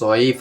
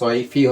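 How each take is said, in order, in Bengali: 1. শব্দটি খালি f ধ্বনি দিয়ে শেষ হয়। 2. শব্দটি f-এর পরে i স্বরধ্বনি দিয়ে শেষ হয়। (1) "আমরা তো পড়ি ইলাফিম রিহলাত শীতাই ও সয়ফ পড়ি" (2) "তাহলে সয়ফি হবে কেন"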